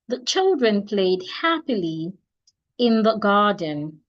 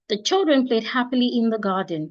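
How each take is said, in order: First: There is a pause after the word happily. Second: It is said straight through without any pause. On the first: "I took a short pause when I got to happily before I proceed to in the garden" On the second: "just like one statement"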